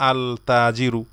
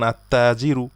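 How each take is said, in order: First: "আল তাজিরু" with a separate l before t; wrongly sounded l. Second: "আত-তাজিরু" with no l and a doubled t; silent article l. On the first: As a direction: keep the l apart in "আল তাজিরু", as a wrong example. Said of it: "এখানে আমরা বলবো না". ("আল তাজিরু", লাম উচ্চারণ করে ভুল রূপ) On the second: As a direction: merge the article into a held t in "আত-তাজিরু". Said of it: "উচ্চারণ সেভাবে হবে". ("আত-তাজিরু", লাম সাইলেন্ট রেখে) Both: Shown as a demonstration.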